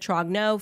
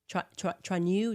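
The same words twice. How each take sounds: First: The G sound is pronounced in the name. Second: The G sound is silent in the name. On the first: The speaker calls it wrong. "I've been saying that wrong this whole time" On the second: The speaker calls it right. "it's a silent G"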